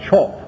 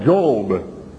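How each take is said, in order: First: The name begins with a 'ch' sound. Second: The name begins with a 'j' sound. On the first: "with a CH pronunciation, like Chop" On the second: "however you want to pronounce it"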